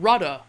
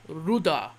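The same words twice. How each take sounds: First: It is said with the modern English pronunciation. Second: It is said with an Old English pronunciation.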